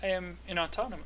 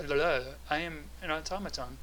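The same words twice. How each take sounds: First: Automaton voice. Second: Steady robot voice; automaton voice. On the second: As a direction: speak like a machine. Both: Acted. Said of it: "talking in the automaton voice".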